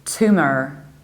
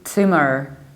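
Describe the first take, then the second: First: It is said with an American accent. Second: It is said with an American accent.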